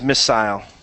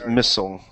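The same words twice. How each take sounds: First: The word is said in a British accent. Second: The word is said in an American accent. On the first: "So the British is missile" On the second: "American is missile"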